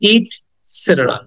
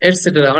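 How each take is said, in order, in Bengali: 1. প্রথম সিলেবলে 'i' স্বরধ্বনি আছে, 'it'। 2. প্রথম সিলেবলে 'e' স্বরধ্বনি আছে, 'et'। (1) "এটার প্রকৃত উচ্চারণ হবে ইটসেটেরা" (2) "অনেকে হয়তো এটসেটেরা বলে"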